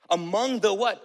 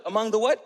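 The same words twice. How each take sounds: First: Said in the usual way. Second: "Among the what?" pushed up on "what" with a clear rising tune; prompting rise. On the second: Shown as a demonstration. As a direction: coax the room to fill in the blank.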